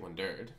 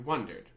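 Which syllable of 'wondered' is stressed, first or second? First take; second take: second; first. First: The stress falls on the second syllable. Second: The stress falls on the first syllable. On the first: The speaker calls it wrong. "We don't say wondered" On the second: The speaker calls it right. "We say wondered"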